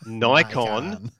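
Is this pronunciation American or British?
American. It is said with an American pronunciation. The speaker calls it wrong. "not Nikon"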